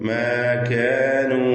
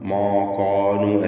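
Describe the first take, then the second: First: The sounds are said light and thin. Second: The sounds are said heavy and dark. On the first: The speaker calls it right. "തർക്കീഖാണ്" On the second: The speaker calls it wrong. "അല്ല"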